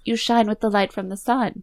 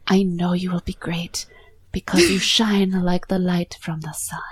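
First: Higher, voiced mock Italian accent; [name]'s bad Italian accent. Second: Put-on whispery, breathy Italian accent; [name]'s bad Italian accent. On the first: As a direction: quote it pointedly in a fake Italian accent. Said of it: "in the worst bad Italian accent". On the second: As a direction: murmur it like a hammy Italian charmer. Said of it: "This is even worse than [name]'s".

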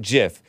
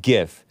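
First: "gif" with a soft g. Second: "gif" with a hard g. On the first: Host states his own pronunciation, "gif" with a soft g. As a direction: pronounce "gif" like "jif". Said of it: "but I call it gif". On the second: Host quotes how his viewers say it, "gif" with a hard g. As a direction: pronounce "gif" with the g of "gift". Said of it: "Some of you guys call it gif". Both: Shown as a demonstration.

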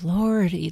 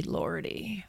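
First: Said in the usual way. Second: Lordy breathed out as a whisper; a sigh of a whisper, meant for nobody; whispered to herself. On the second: A narrator's reading. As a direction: let the second lordy fade into a private whisper. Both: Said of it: "saying to herself".

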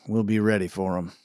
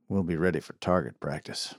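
First: Said in the usual way. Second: Low quiet threat. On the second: Acted. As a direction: lower and softer, menacing. Sheriff repeats, darker.

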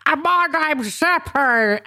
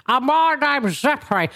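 First: Higher, slow put-on voice for Zeppo; Janet Street Porter-like Zeppo. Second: Higher put-on Zeppo voice, less Janet Street Porter. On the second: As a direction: looser take on the puppet voice. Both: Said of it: "much less like Janet Street Porter than I did it before".

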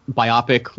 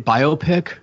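First: "Biopic" said bye-AH-pick, rhyming with myopic; "Biopic" with a short AH in the middle; short o pronunciation. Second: "biopic" said bye-OH-pick with a long OH; "biopic" stressing the OH sound; long o pronunciation. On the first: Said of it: "you guys say this on your show". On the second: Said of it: "Isn't it biopic?". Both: Shown as a demonstration.

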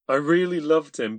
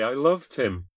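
First: "really" punched through tears; stress on really. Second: Loud, high tearful confession; girl crying over her lover; grieving. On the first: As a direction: really hit loud and high. Grieving girl confesses. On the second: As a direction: say it through grief. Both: A narrator's reading.

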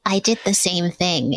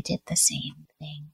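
First: Said in the usual way. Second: Soft breathy whisper, half to herself; confiding whispered admission; whispered aside. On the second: Real, not acted. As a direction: drop to a whisper for the repeat. Repeats her own line as aside.

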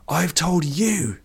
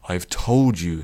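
First: Slow, high-pitched strained shout; shouting back. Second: Said in the usual way. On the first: A narrator's reading. Addict shouts back at the old man, shouting. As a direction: throw it back high and drawn out. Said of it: "Vish shouted back".

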